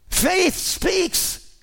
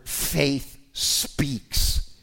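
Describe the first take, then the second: First: Faith speaks with Faith punched much higher; emphasized. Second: Faith speaks whispered, almost no voice; quiet take. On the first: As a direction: hit the word Faith hard and high. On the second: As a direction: breathe the words faith speaks softly. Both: Shown as a demonstration. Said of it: "I could emphasize that word".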